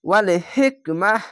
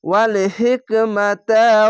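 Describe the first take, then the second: First: The word ends in an h sound before a stop. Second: The word ends in ta, flowing into the next words. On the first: The reader stops after this word. "এখানে থামতে গেলে হা পড়লাম" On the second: The reader continues without stopping. "আর যদি না থামেন তাহলে তা পড়তে হবে"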